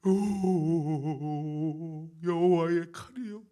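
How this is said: It is cried out in anguished lament. The speaker calls it right. "이런 뉘앙스예요"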